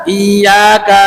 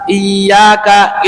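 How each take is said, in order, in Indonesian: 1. Bunyi ya dipanjangkan dengan panjang. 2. Bunyi ya dipanjangkan dengan panjang.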